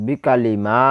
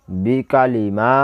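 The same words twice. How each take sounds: First: বিকালি kept short, মা held long; quick short বিকালি, then stretch মা; only mim elongated. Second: Slow বিকালি মা with the vowels drawn out; elongated vowels. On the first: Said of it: "মিমটা টান হবে". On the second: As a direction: stretch কা as well as মা in বিকালি মা. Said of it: "আবার বলতেছি". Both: Shown as a demonstration.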